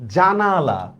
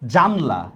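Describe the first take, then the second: First: The word is said with three syllables. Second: The word is said with two syllables. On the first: "একটা দুইটা তিনটা" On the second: "একটা দুইটা গেল"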